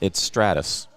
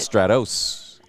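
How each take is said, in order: First: The last syllable is pronounced like 'us'. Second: The last syllable is pronounced like 'os'. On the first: This is how it is said in Texas. "in Texas" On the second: This follows the spelling with an O. "It's an O S"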